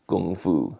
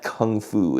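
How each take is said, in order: First: The first word begins with a G sound. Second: The first word begins with a K sound. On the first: The speaker calls it right. "If you really want to pronounce it properly in Chinese" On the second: The speaker calls it wrong. "it is not Kung Fu"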